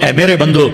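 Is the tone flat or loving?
flat. It is said in a flat, plain tone. The speaker calls it wrong.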